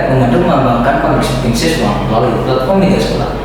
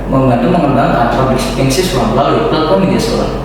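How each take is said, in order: The two takes are said the same way.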